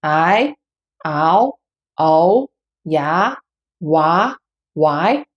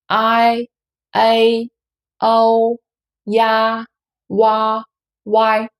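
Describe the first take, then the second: First: "I, Ao, O, Ya, Wa, Y" each starting low and rising; Mandarin second tone. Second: "I, A, O, Ya, Wa, Y" each held long on a level, steady pitch; Mandarin first tone. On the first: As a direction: lift each of "I, Ao, O, Ya, Wa, Y" upward like a question. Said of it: "the second tone". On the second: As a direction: chant "I, A, O, Ya, Wa, Y" one by one in level first tone. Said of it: "we only use first tone to practice all the compound final". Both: Shown as a demonstration.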